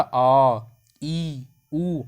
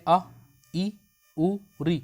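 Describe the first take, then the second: First: आ held out long and loud; long take of the vowels. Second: आ, ई, उ, री said quickly and briefly; short take of the vowels. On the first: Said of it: "ज़्यादा समय लग रहा". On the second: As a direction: clip each vowel short. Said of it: "कम समय लग रहा है". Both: Shown as a demonstration.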